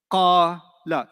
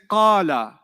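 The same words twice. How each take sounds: First: "Qala" split into two syllables, long qaa, then la. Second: Said in the usual way. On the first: Shown as a demonstration. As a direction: say "Qala" with a clear gap between qaa and la. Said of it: "Two syllables". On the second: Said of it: "When I say qala".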